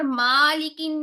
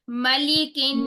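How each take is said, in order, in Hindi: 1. पहला स्वर लंबा खींचा जाता है। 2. पहला स्वर छोटा रखा जाता है। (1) "मालिकिन नास नहीं करेंगे" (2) "हमने मीम को भी लंबा नहीं करना"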